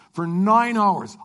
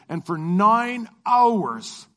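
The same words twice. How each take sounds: First: "For nine hours" slowed, with the weight on "nine"; stress on nine. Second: Slow, stretched "And for nine hours", leaning on "hours"; drawn-out emphasis. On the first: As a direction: punch "nine", the number of hours. Repeats the long flight. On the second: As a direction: drag out "hours" to show how long it was. Stretching out the long flight. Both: Real, not acted.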